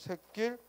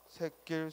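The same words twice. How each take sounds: First: The first syllable ends with a t-like stop. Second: The first syllable ends openly, without a stop. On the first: This is an accepted alternative pronunciation. "두 가지 발음을 모두 허용한다" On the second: This is the standard pronunciation. "원칙은 앞에 거고"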